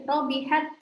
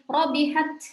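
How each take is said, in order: First: The final T has only a slight release. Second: The final T has a strong, overdone release. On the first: The speaker calls it right. "Sedikit saja" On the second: The speaker calls it wrong. "Ketika dibaca berlebihan"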